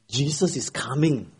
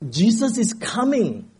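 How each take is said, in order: First: It is said at a moderate volume. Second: It is shouted very loudly.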